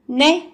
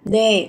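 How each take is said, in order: First: The voice rises at the end. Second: The voice is level and falls slightly. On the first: Asking someone to repeat what they said. "Thì bạn sẽ có lên giọng một chút là né" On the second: A normal yes in answer. "các bạn xuống giọng trả lời một cách bình thường, giọng đều đều sẽ là nè"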